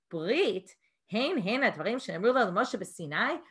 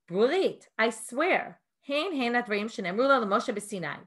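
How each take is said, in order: First: It is said as a sarcastic, mocking question. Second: It is said as an earnest, approving statement.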